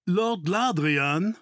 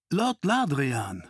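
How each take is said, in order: First: Drawn-out call, higher and rising at the end; stretched, lifted call of a title and name. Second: Slow, drawn-out name falling at the end; stretched title and name, no longer calling; measured address. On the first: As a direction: hail someone from behind, slowly. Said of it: "rief eine Stimme von hinten". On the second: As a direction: address him formally, settling downward. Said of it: "sagte der Mann". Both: A narrator's reading.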